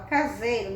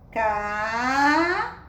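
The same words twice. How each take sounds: First: Said in the usual way. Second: CASEIRO with very long CA and ZEI, long pauses, then RO; syllable by syllable. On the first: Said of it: "agora, nós vamos fazer a leitura". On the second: Shown as a demonstration. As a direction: sound out CASEIRO extremely slowly. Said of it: "vamos observar quantas sílabas ela tem".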